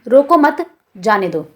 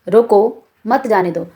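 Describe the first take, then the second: First: The pause comes after the word 'mat'. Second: The pause comes after the word 'roko'. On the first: Do not stop them; let them go. "रोको मत के बाद अल्प विराम चिन्ह यानी कि कॉमा का प्रयोग किया गया है" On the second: Stop them; do not let them go. "रोको के बाद अल्प विराम का प्रयोग किया गया है"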